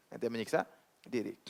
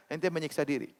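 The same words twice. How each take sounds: First: Quieter echo, weight on "menyiksa"; softer repeat. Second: Said in the usual way. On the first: Shown as a demonstration. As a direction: drop the voice and lean on "menyiksa".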